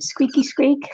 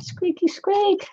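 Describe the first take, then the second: First: Squeaky little mouse sound. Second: High, slow squeaky mouse voice; high slow mouse squeak. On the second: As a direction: stretch it out like a tiny mouse. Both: Pretend. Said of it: "Sounds like a mouse".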